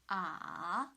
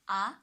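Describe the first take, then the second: First: The pitch dips low, then rises. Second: The pitch rises from mid to high. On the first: "two to one to four" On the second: "the second tone from three to five"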